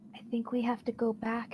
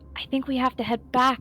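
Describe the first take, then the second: First: It is said very quietly, whispered. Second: It is said louder than a whisper.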